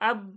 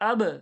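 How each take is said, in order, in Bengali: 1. শেষের b সোজা থেমে যায়, কোনো প্রতিধ্বনি ছাড়া। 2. শেষের b প্রতিধ্বনি নিয়ে দ্বিগুণ হয়ে ফিরে আসে। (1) "তাহলে কলকলা হলো নি" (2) "ব বলে আবার ডবল আনলাম"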